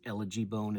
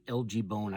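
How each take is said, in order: First: LG is spoken as one word, elegy. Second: LG is spoken as two separate letters. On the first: The speaker calls it right. "is really the proper way that you say it" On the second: The speaker calls it wrong. "I always call it"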